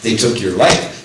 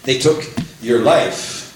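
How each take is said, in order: First: Said in the usual way. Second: "took" stressed and drawn out slowly; slow emphatic stress. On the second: Shown as a demonstration. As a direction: lean hard on "took" and slow the whole line. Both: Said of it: "They didn't take your faith".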